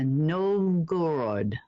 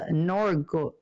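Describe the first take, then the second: First: Novgorod said slowly in a Russian accent. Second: Norgo- broken off, a failed try at Novgorod; false start. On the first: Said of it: "trying to say that correctly in my Russian accent". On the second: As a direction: stumble on Norgo- and cut it short. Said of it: "I'm trying to say that correctly". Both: Shown as a demonstration.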